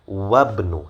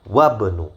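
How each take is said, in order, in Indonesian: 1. Kedua kata disambung, dengan menghilangkan vokal awal. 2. Kedua kata disambung, dengan menghilangkan vokal awal.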